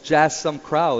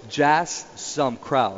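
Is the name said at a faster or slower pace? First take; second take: faster; slower. First: The name is said at normal speed. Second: The name is said more slowly.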